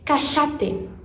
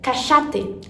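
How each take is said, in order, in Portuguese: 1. É falada do jeito do espanhol argentino. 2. É falada do jeito do espanhol argentino.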